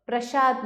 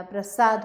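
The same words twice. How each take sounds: First: प्रसाद as prashaad; प्रसाद with श in the middle. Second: Said in the usual way. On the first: Shown as a demonstration. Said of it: "प्रसाद नहीं होता". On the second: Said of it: "प्रसाद होता है".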